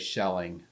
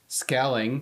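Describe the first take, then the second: First: The name begins with a soft sh sound. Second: The name begins with a hard sk sound. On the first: This is the German way of saying the name. "the German language would say shelling" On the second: This is the Dutch way of saying the name. "it's with a spit, it's a sk"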